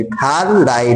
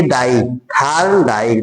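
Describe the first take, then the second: First: Said in the usual way. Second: थार्न डाई said slowly, each part held apart; teacher slowly demonstrating थार्न डाई; slow sounding out. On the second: Shown as a demonstration. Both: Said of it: "डाई, इसमें sound आ रहा है".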